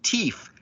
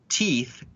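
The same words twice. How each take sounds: First: The word is said with a slang pronunciation. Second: The word is said with standard pronunciation. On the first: "thinking it's cool to say the word teeth as teeth" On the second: "say the word teeth"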